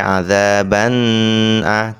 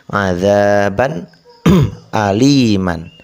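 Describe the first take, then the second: First: The n sound is held long. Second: The n sound is short and clear. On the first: The speaker calls it wrong. "Jadi tidak boleh lama-lama. Tidak boleh adzaban a" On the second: The speaker calls it right. "Bagaimana cara membacanya?"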